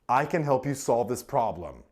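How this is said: The stress falls on the word can. The speaker is able to do it. "Emphasizes your capability"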